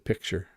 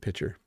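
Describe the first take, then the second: First: The C sound is clearly pronounced. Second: The C sound is dropped.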